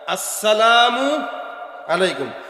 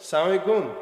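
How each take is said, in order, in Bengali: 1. শুরুর 'a' আর 'mu' স্পষ্টভাবে উচ্চারণ করা হয়। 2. শুরুর 'a' আর 'mu' বাদ পড়ে যায়। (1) "শুরুর হামজা আর আসসালামু এর মিমটা, এই দুইটা উচ্চারণ ঠিক মতো করবেন" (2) "সালাম দিতেন ব্যঙ্গ করে"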